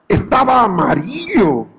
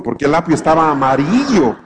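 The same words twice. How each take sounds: First: "estaba amarillo" repeated slower and higher, stretching "estaba"; slow, raised, disbelieving "estaba amarillo"; emphatic repeat. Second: Said in the usual way. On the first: Real, not acted. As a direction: drag out "estaba amarillo" slowly, pitched up, for effect.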